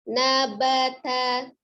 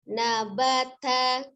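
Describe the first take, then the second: The two takes are said the same way.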